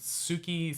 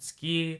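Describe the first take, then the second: First: The u after the s is clearly voiced. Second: The u after the s is dropped. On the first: "sometimes people pronounce it Suki" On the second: "sometimes people pronounce it ski"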